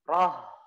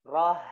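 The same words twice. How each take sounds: First: The r sound is made forcefully. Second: The r sound is made softly. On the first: The speaker calls it wrong. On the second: The speaker calls it right. "Dengan lembut cara mengucapkan"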